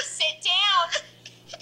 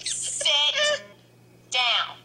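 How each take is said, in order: First: Said in the usual way. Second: Firmer call. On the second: Real, not acted. Mom repeats, pitched up.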